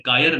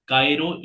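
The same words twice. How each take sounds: First: कायर ending on "r", no final "o"; common mispronunciation. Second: कायरो with a clear final "ro"; correct pronunciation. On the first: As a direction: drop the last vowel, say कायर. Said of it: "कई लोग कायर बोल देते हैं, ये नहीं है". (कायर, आख़िर में "ओ" के बिना) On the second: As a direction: finish कायरो on a full "o" vowel. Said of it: "कायरो बोल के कई लोग कायर बोल देते हैं". (कायरो के अंत में साफ़ "रो") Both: Shown as a demonstration.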